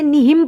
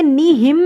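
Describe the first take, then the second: First: نہم with the final m closed at once, no hum; short, unstretched نہم; correct short reading. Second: نہم with the final m held too long in a hum; wrongly stretched نہم; drawn-out wrong reading. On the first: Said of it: "میں نے نہم پڑھا". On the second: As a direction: linger on the closing m of نہم. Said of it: "میں نے نہیں پڑھا". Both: Shown as a demonstration.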